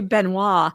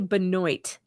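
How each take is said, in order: First: It has a Southern, Cajun French-influenced pronunciation. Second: It has a Northern American pronunciation. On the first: "you people are from the South for sure. You've got that Cajun French influence" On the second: "in the Yankee North, we say Benoit"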